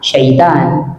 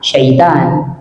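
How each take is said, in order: First: The second syllable has an 'a' vowel. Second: The same.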